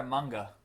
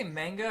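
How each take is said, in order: First: "manga" with an open ah, MAHNG-guh; open-vowel pronunciation. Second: "manga" with a flat a as in "man"; short-a pronunciation. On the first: Co-host offering the other way to say it, open-ah "manga". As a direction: say "manga" with the first vowel as in "father". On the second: Co-host checking how the word is said, short-a "manga". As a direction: say "manga" as MANG-guh. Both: Shown as a demonstration. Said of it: "Do you say manga or manga?".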